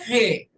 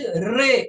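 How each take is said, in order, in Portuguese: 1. O r é um r em estilo português. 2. O r é um r suave, em estilo inglês. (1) "e não de re" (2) "o som é de re"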